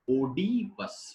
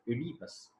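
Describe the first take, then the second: First: The word begins with an 'o' sound. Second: The word begins with an 'e' sound. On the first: The speaker calls it wrong. "Most of the speakers say Oedipus" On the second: The speaker calls it right. "O alphabet has two different pronunciations, O sound and E sound"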